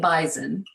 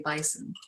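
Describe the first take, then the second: First: The middle consonant sounds like a z. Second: The middle consonant sounds like an s. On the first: This is how locals say it. "we say Bison with kind of like a Z sound" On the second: This is how other regions say it. "Other parts of North Dakota say Bison"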